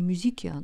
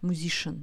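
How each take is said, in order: First: The middle is pronounced with a 'k' sound. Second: The middle is pronounced with a 'sh' sound. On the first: The speaker calls it wrong. "не музикиан" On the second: The speaker calls it right. "читаем как ш, шн"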